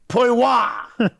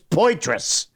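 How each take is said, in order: First: The t and final s are both dropped. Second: The t and final s are both sounded. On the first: The name is said the way they pronounce it. The speaker calls it wrong. "He didn't say it was Billy Poiwa" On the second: The name is said the way it is spelled. The speaker calls it right. "it's obvious it's Poitras"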